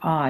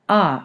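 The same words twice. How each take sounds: First: It is said at a lower pitch. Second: It is said at a medium pitch. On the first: "that's suggesting a lower pitch" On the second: ""Ah" being a medium pitch"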